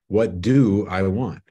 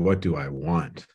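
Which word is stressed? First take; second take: do; want. First: The stress falls on the word 'do'. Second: The stress falls on the word 'want'.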